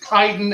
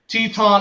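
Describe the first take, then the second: First: The name is said like the moon. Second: The name is not said like the moon. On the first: This is how the name of the moon is said. The speaker calls it right. "It's Chiton ... the astronomy nerd in me" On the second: This is how the wrestler's name is usually said. The speaker calls it wrong. "It's not Teton"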